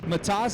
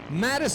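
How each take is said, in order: First: The name is said with a Lithuanian pronunciation. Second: The name is said with an American pronunciation. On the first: "but it's Matas" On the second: "if you're here in America and you're just a redneck like me"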